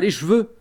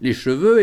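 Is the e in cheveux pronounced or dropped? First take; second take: dropped; pronounced. First: The e in the first syllable is dropped. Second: The e in the first syllable is pronounced. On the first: The speaker calls it wrong. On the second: The speaker calls it right.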